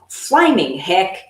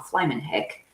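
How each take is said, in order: First: The G of flaming is pronounced, said annoyed. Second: The G of flaming is dropped, said casually. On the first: The speaker is extremely annoyed. "extremely annoyed, and then it's like flaming heck. Um, and then you do pronounce the G" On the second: The speaker is only mildly sarcastic. "most of the time, it's just like, oh, flaming heck"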